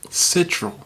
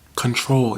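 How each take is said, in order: First: It is said as 'sitral', spelling the letters. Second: It is said as the full word 'control'. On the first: The speaker calls it wrong. "I used to pronounce it Citral" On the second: The speaker calls it right. "that's how you pronounce it"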